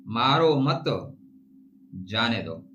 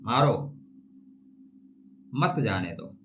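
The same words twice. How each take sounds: First: मारो मत as one phrase, pause, then जाने दो; pause after मत. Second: मारो alone, then a long pause before मत जाने दो; pause after मारो. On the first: Showing how a comma changes meaning, pause after मत. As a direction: run मारो into मत, break before जाने दो. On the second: Showing how a comma changes meaning, pause after मारो. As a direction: break straight after मारो, keep मत with जाने दो. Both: Shown as a demonstration. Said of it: "जहां कामा लगाएंगे शब्द अर्थ बदल जाएंगे".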